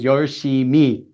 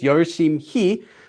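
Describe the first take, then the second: First: Said naturally with the h sound dropped. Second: Said slowly with the h sound pronounced. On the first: "this H goes away, so it just becomes 열심히" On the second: "if you say it slowly, it's 열심히"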